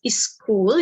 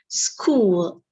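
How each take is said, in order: First: The word is said in the first, rejected pronunciation. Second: The word is said in the second, recommended pronunciation. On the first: The speaker calls it wrong. "you should not pronounce it as school" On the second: The speaker calls it right. "You should try to pronounce it as school"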